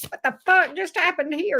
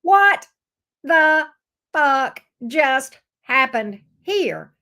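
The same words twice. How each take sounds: First: Faster, lighter indignant quote; quick outraged quote. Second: Loud, slow, drawn-out outrage; outraged disbelief. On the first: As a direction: toss off the outrage briskly. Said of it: "Gemini said". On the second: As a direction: stretch every word in disbelief. Gemini's outraged reaction voiced. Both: Acted.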